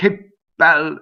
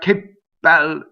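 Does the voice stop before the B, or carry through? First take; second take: stops; stops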